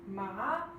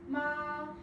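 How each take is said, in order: First: The pitch rises from middle to high. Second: The pitch stays high and level throughout. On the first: It means numb. "tone two, which is an upward slant" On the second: It means mother. "tone one, which is a straight line"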